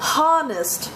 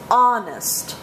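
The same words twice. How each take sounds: First: The word starts with an audible H sound. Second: The word starts with a vowel, no H. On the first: The speaker calls it wrong. "it's not honest man" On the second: The speaker calls it right. "it's honest"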